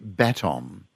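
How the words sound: The stress is on the first syllable.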